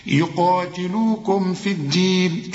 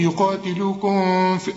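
First: "يقاتلوكم في الدين" slowly, closing the m briefly before f; clear unheld meem. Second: Sung, "يقاتلوكم في" with the m wrongly drawn out into the f; sung, drag the m of "يقاتلوكم" as a mistake; wrong hummed meem. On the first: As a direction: keep the m of "يقاتلوكم" clean, no hum. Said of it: "إذا كان بعدها ف". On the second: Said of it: "اوعى تقول لي". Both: Shown as a demonstration.

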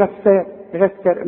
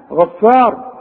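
First: غفار with thin, fronted "ae" vowels; wrongly thin Ghayn. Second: غفار with dark, backed vowels; full heavy "ghaffaar" for غفار; correct heavy Ghayn. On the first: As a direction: say غفار as "ghaeffaer". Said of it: "عمرك ما هتقول إيه". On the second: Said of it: "أنت بتقولها صحيحة". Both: Shown as a demonstration.

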